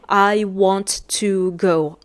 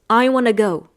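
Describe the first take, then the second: First: Each word is said fully and separately. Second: The words are blended together and reduced. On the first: This is the textbook form. "in the dictionary, you're going to find" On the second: This is how people really talk. "in the real life conversations, especially with the American accent"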